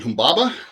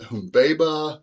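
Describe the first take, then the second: First: The middle vowel is short. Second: The middle vowel is long. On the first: This follows the older, familiar usage. "the way I learned it" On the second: This follows the new translation. "all those middle vowels ... should be long vowels"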